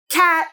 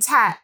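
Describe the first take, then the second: First: The word begins with a k sound. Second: The word begins with a t sound. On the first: The speaker calls it right. "instead of you saying cat" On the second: The speaker calls it wrong. "you're saying tat"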